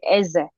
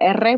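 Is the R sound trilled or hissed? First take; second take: hissed; trilled. First: The R is a hissing, fricative sound. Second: The R is a rolled trill. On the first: This is how the R sounds in the native Andean languages. "We don't say that, we say ese" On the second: This is the standard peninsular pronunciation. "peninsular, correct Spanish is supposed to be spoken like with R"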